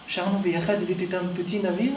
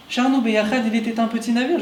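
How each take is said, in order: First: An old man's foreign accent, lightly put on; a hint of his accent on the song line; Moshe's accent. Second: Said in the usual way. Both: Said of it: "avec son accent".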